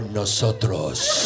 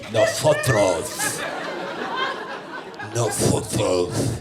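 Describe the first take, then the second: First: "nosotros" said plainly in an American voice, rising; a plain first "nosotros" before the Spain version; Spanish word. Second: Put-on Castilian Spain accent, slow with a lisped "Nosotros"; Spain Spanish accent. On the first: Retold or imitated. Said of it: "Formal Spanish". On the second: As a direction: say "Nosotros" slowly like someone from Spain. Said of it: "With an accent from Spain".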